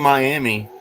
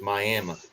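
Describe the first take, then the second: First: The word ends with an ee sound. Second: The word ends with an uh sound. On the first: The speaker calls it wrong. "they don't say Miami" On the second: The speaker calls it right. "they say it with an A"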